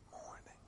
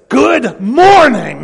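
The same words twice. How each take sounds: First: It is spoken so softly it is barely heard. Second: It is shouted loudly, as if in sudden pain. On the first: The words have no impact. "When you speak them so softly that nobody can hear them" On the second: The words convey alarm or pain. "as if somebody just dropped an anvil on your big toe"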